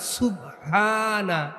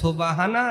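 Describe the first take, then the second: First: The first vowel sounds like 'u'. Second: The first vowel sounds like 'o'. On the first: The speaker calls it right. "সিনের উপর পেশ, বার উপরে সাকিন" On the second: The speaker calls it wrong. "তাহলে এর মধ্যে ভুল আছে না?"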